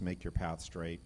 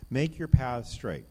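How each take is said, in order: First: Said in the usual way. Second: Louder and slow, "Make" hit hard; emphatic proclamation. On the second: Shown as a demonstration. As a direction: proclaim "Make your path straight" as the big payoff. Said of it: "this is the big payoff".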